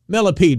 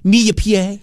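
First: The name is said with a plain English pronunciation. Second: The name is said with a French-style pronunciation. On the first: It sounds like the name of a bug. "To me, millipede, baby" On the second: It sounds more exotic. "how do you think they say it? Probably Millipied"

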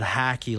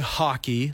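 First: The first vowel sounds like an A. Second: The first vowel sounds like an O. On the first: This is how Americans say it. The speaker calls it wrong. "They pronounce it hacky like there's an A in it" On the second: This is how Canadians say it. The speaker calls it right. "We say hockey like there's an O in it"

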